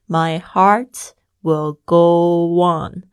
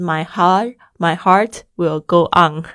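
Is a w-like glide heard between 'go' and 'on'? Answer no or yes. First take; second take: yes; no. First: A w glide links 'go' smoothly into 'on'. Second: 'Go' and 'on' are said without a linking glide. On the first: The speaker calls it right. "会有一个我的声音go on" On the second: The speaker calls it wrong. "所以不是My heart will go on 哦，这个不是哦"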